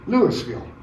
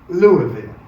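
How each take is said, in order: First: It is said the Northern way. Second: It is said the Southern way.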